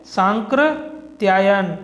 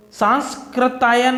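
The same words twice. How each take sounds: First: सांकृत्यायन with no s before the k; slow, measured सांकृत्यायन, "saan-kri-tyaayan"; correct form. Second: सांस्कृत्यायन with an s before the k; the mistaken सांस्कृत्यायन, "saans-kri"; wrong form. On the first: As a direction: draw out सांकृत्यायन, going straight from nasal to k. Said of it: "ये होता है सांकृत्यायन". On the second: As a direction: sound the half स in सांस्कृत्यायन. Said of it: "सांस्कृत्यायन नहीं होता है". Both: Shown as a demonstration.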